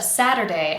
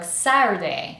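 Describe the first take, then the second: First: The middle tap is clear and fully audible. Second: The middle tap is so soft it almost disappears. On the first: The speaker calls it right. "instead of Saturday" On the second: The speaker calls it wrong. "it can become very soft and I almost don't hear it"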